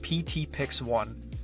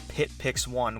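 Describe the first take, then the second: First: The first part is spelled as two letters. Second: The first part is said as one word. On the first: The speaker calls it right. "It's pronounced P T Pix one" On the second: The speaker calls it wrong. "I've had a few people pronounce it as Pit Pix one, which just sounds really weird to me"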